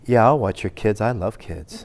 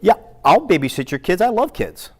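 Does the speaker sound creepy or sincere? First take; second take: creepy; sincere. First: It sounds creepy and insincere. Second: It sounds warm and sincere.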